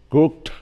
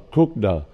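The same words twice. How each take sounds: First: The ending is a plain t sound. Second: The ending is an added extra syllable. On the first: The speaker calls it right. "ed mà đứng sau chữ K thì đọc, đọc nó như là âm thanh T" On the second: The speaker calls it wrong. "chứ không phải là cooked"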